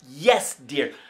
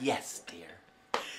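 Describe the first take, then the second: First: It is said with strong passion. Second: It is said in a plain, flat way.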